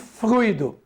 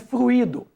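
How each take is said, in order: First: The 'u' and 'i' form one single syllable. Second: The 'u' and 'i' form two separate syllables. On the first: It is the noun meaning a fluid. The speaker calls it right. "nós lidamos com fluido" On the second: It is the verb form, not the noun. The speaker calls it wrong. "A gente ouve muitas pessoas pronunciarem fluido"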